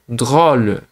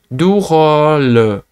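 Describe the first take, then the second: First: The d and r are joined in one cluster. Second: An extra vowel separates the d and r. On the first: "falar drôle de, de direto" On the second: "se você não consegue falar drôle de, de direto, né, de cara, você vai tentar du rôle"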